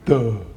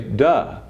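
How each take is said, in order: First: It is said in a dopey cartoon voice. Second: It is said in a plain, ordinary voice.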